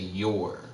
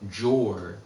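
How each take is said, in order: First: It begins with a Y sound. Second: It begins with an English J sound. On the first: The speaker calls it right. "I thought the J was pronounced like a Y" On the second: The speaker calls it wrong. "instead of saying Jor"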